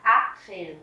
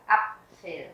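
First: Apfel with the A wrongly drawn out long. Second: Apfel with a short, quick A like Vietnamese Á. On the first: Teacher showing how not to say it, long-A mistake. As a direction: stretch the first A in "Apfel". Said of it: "Mình không đọc là Apfel". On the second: Teacher correcting the long vowel, short-A demo. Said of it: "âm A đọc ngắn". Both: Shown as a demonstration.

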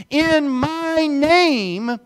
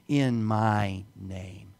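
First: In my name, stretched very slow, higher and louder; drawn-out emphasis. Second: In my name, very slow, lower and softer; slow quiet emphasis. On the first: Pastor reads Mark sixteen, stretching In my name slow and loud. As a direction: let each word of In my name ring out slowly. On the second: Pastor repeats the verse's three words, slow and soft. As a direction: lay each word of In my name down slowly and softly. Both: Shown as a demonstration. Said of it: "emphasize these three words".

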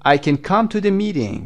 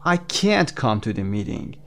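First: Short can, a high, loud stress on come; weak can. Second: Slow, can't drawn out and emphasized; stress on can't. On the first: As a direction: pass over can and punch come. (can ضعیف، تأکید روی come) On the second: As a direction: stretch can't with a full vowel. (can't کشیده و با تأکید) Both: Shown as a demonstration. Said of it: "can you hear the difference".

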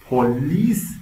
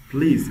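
First: "پلیس" said as "po-lis", two syllables; "پلیس" like the Persian word for police; wrong pronunciation. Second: "پلیس" said as one syllable, "plis"; "پلیس" like English "please" with an s; correct pronunciation. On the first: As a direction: slowly put an o after the p of "پلیس". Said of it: "پلیس نیست". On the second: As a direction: run p straight into l in "پلیس". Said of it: "پلیس هست". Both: Shown as a demonstration.

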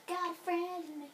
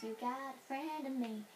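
First: 1 sung louder. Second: 1 sung line. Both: Real, not acted. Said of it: "Why am I saying that?".

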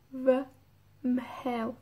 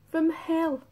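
First: V, mhel said in two parts, pause before the nasal mh; nasal mutation, split. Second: V mhel run together as one unit, higher; nasal mutation, joined. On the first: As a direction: sound out V, then mhel separately. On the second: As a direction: link V straight into the nasal mhel. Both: Shown as a demonstration. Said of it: "cambia a M H en la mutación nasal".

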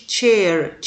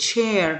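First: "chair" with a crisp tch at the start; modelled ch sound. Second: Said in the usual way. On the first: Shown as a demonstration. Teacher showing pupils how "chair" begins, clear tch. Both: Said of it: "طبعًا بنقول تش".

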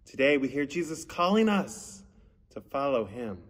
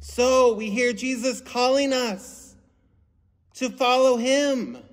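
First: Said in the usual way. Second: Higher, slower and louder, drawn out; emphatic recap. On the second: Shown as a demonstration. Pastor stressing the theme to children, slow and emphatic. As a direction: lean in and drive the message home.

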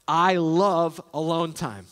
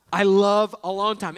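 First: Slow, lingering delivery of each word; drawn-out, relishing statement; slow and savoring. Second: "love" punched a little louder; emphatic repeat leaning on "love"; stress on love. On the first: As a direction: let the phrase hang fondly. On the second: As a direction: hit "love" firmly. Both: Shown as a demonstration.

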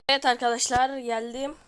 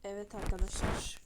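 First: "Evet arkadaşlar" belted out much louder, punchy "Evet"; energetic intro. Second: Said in the usual way. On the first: Shown as a demonstration. Gamer redoing his greeting to viewers, loud and hyped. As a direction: open like a hyped YouTuber greeting. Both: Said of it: "bir dakika".

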